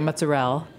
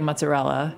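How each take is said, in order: First: It is said with an Italian-American dialect pronunciation. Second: It is said with a general American pronunciation. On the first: "You say mozzarella" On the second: "you can't say mozzarella"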